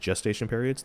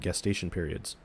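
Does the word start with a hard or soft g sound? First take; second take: soft; hard. First: The word begins with a soft j sound. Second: The word begins with a hard g sound. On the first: The speaker calls it wrong. "I don't care if it's pronounced as gestation periods. They should have used the letter J then" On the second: The speaker calls it right. "it makes a G sound"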